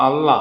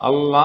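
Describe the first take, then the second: Both takes have the same delivery.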